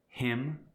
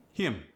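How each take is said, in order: First: Said in the usual way. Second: South African "him" with an ee vowel; South African accent. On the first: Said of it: "For instance". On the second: Shown as a demonstration. Teaching vowels before M, South African "him". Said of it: "it gets the E sound".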